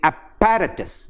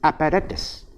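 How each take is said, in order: First: The p sound is doubled with extra force. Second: The p sound is single and light. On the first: The speaker calls it wrong. "We say apparatus" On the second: The speaker calls it right. "No doubling of the sound"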